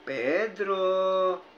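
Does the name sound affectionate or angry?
affectionate. The name is said in a tender tone. The person who said it is romantically attracted. "hindi kaya nababakla na si Juan sa akin?"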